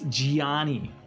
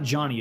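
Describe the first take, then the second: First: The name is said in an Italian accent. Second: The name is said in a plain English accent. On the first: The speaker calls it right. "Gotta say it with the accent" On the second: The speaker calls it wrong. "It's not Johnny"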